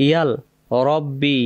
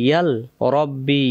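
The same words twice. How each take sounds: The two takes are said the same way.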